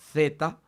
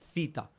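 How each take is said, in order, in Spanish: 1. La palabra empieza con un sonido th. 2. La palabra empieza con un sonido s. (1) "El sonido de la T H o de la Z española" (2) "los profesores nos decían cita"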